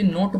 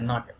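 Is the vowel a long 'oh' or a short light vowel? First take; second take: long oh; short light. First: The vowel is a long 'oh' sound. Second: The vowel is short and light. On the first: The speaker calls it wrong. "हम लोग कभी कभी नोट बोलते हैं" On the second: The speaker calls it right. "मतलब कि हल्का सा वो, जैसे कोकोनट"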